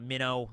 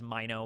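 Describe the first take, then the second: First: It is said like the word minnow. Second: It is said unlike the word minnow. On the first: The speaker calls it wrong. "I'll also sometimes pronounce it uh, Minnow, like like Minnow" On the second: The speaker calls it right. "I think it is Mino"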